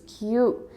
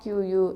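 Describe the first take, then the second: First: The word is said as one short syllable. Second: The word is said with an extra vowel sound. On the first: The speaker calls it right. "It's Q" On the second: The speaker calls it wrong. "It's not Q U"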